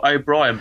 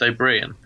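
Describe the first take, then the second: First: O'Brien said as written, like oh-BRY-en; spelled-way pronunciation. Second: O'Brien said as oh-BREEN; Irish name pronunciation. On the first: Asking co-host about the spelling, O'Brien said as written, oh-BRY-en. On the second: Asking how the comic's name is pronounced, O'Brien said as oh-BREEN. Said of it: "but pronounced". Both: Shown as a demonstration.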